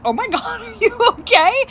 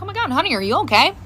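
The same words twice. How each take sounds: First: High-pitched question through laughter; amused, barely holding it together; bursting out laughing. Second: Mild motherly worry; retold concern, no laughter; a little concerned. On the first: Retold or imitated. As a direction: laugh while asking after someone. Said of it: "I burst out laughing". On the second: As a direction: gently check on a child. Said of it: "I was a little concerned".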